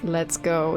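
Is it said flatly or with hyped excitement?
flatly. It is said flatly and calmly.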